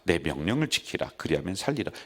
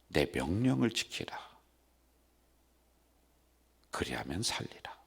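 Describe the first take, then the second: First: It is read at a normal, quick pace. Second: It is read slowly and deliberately aloud. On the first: "이게 보통 속도란 말이에요" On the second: "이렇게 읽으래"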